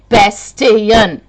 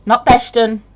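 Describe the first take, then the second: First: Bastian with a clear T, BAS-tee-an; correct pronunciation. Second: Bastion as BASH-tun, the wrong way; wrong pronunciation. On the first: Correcting viewers on her surname, firm and clear. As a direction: stress the T in Bastian. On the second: Showing viewers how people mispronounce her name. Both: Shown as a demonstration.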